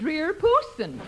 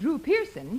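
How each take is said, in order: First: The name is said with its vowels swapped. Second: The name is said with its normal vowels. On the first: The speaker calls it wrong. "he said Dreer Pooson" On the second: The speaker calls it right. "he was supposed to say"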